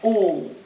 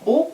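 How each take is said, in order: First: The vowel is held long. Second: The vowel is short.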